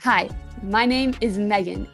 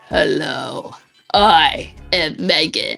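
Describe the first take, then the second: First: It is said in her normal voice. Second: It is said in a put-on villain voice.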